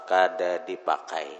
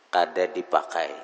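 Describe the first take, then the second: The two takes are said the same way.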